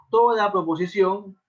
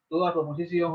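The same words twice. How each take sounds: First: "toda" slow and louder, leaning on it; "toda" drawn out with emphasis; stress on toda. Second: Said in the usual way. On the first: Shown as a demonstration. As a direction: hit "toda" firmly, teacher style.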